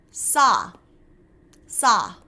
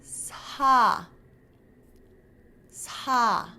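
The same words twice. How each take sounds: First: Sa with a hissing English S. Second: Sa with a gentle, softened S. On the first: Teacher giving the English S first. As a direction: hiss sa the English way. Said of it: "the English equivalent first". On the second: Teacher showing the Korean softened S. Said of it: "to soften this". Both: Shown as a demonstration.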